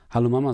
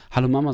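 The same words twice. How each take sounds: First: Eager call into the phone, a bit louder; hopeful, urgent hello to his mother; excited greeting. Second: Eager, louder call into the receiver; urgent, hopeful hello; excited greeting. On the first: Son calling his estranged mother, louder and excited. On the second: Son reaching his mother after years, excited and louder. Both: A narrator's reading. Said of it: "sage ich aufgeregt".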